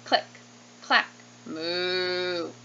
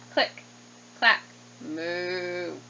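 No difference in how they are said.

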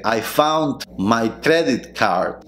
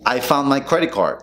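First: Very slow, full D and T in "found" and "credit"; every consonant sounded. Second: "found my credit" as "foun my credi", linked; swallowed Ts and Ds. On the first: Teacher showing what to avoid, slow full pronunciation. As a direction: separate each word of "I found my credit card". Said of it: "en vez de decir". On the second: Teacher showing the quick version, reduced pronunciation. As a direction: drop final consonants through "I found my credit card". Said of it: "comiéndote tanto las T's como las D's". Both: Shown as a demonstration.

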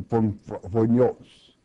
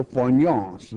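First: Phonios spelled out slowly, syllable by syllable; slow careful pronunciation. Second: Said in the usual way. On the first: Shown as a demonstration. Preacher teaching congregation the word phonios, slow careful sounding out. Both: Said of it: "you will find a Greek word".

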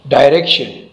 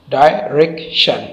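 First: Said in the usual way. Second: "direction" slowly broken into three beats, डाय, रेक, शन; syllable by syllable. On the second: Shown as a demonstration. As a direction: clear gaps between the syllables of "direction". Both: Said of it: "इसमें तीन syllable है".

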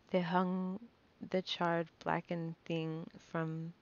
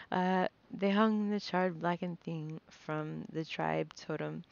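First: Slow, choked-up reading, fighting tears; holding back tears. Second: Said in the usual way. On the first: Real, not acted. Narrator reading a mother's death, close to tears. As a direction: swallow the words as tears rise. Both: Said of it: "I'm trying not to cry".

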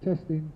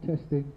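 The two takes are said the same way.

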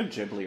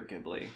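First: "Ghibli" with a soft G, like "Jibli"; soft-G pronunciation. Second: "Ghibli" with a hard G, as in "give"; hard-G pronunciation. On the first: Host unsure of the studio's name, "Ghibli" said with a soft G. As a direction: say "Ghibli" starting with a J sound. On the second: Host offering the other option, "Ghibli" said with a hard G. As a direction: say "Ghibli" starting "gib", hard G. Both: Shown as a demonstration. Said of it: "is it Studio Ghibli or Ghibli".

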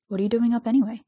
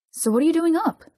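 First: Said in the usual way. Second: High, louder insistent question; demanding. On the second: A narrator's reading. Jisung presses Dong-hyuk on being awake, demanding. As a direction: demand an answer, pitch climbing sharply. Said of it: "Jisung demanded".

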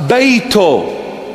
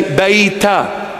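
First: Beito ending in o; Western Syriac beito. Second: Beita ending in a; Eastern Syriac beita. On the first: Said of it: "For house". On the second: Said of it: "We say". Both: Shown as a demonstration.

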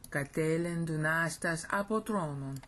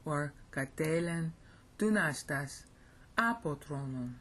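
First: Apotronon stressed on its ending. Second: Apotronon with apo stressed, each word set apart. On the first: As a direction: lean on the end of apotronon. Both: Shown as a demonstration. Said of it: "Depending on if you want to stress apo".

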